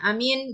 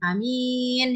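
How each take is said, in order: First: Both vowels are said short. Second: Only the second vowel is lengthened. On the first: It means safe and peaceful. "sama-sama pendek, tidak ada panjangnya sama sekali" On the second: It means trustworthy and honest. "A-nya pendek, kemudian mimnya panjang"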